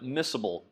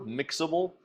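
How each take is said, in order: First: The middle consonant is pronounced as s. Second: The middle consonant is pronounced as ks. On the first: It is the real form of the word. The speaker calls it right. "Miscible is the actual pronunciation of that" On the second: It is a memory aid, not the real form. The speaker calls it wrong. "Sometimes in class we pronounce it mixable to help you remember"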